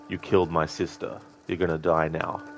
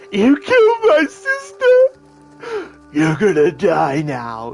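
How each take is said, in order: First: It is said in a subtle, restrained way. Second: It is said in an exaggerated, overdramatic way.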